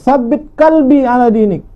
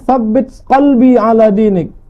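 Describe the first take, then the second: First: It uses a plain s and a plain k. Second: It uses a th sound and a deep q. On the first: It asks to tie up a dog. The speaker calls it wrong. "tambatkanlah anjingku, maka maknanya berubah" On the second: It asks for a firm heart in faith. The speaker calls it right. "tetapkanlah hati kami Allah dalam agamamu"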